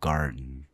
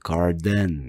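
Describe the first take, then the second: First: The ending is released through the nose. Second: The ending has a full vowel before n. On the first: The speaker calls it right. "이 비강 소리로 만들어져요" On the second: The speaker calls it wrong. "garden 이렇게 안 하고"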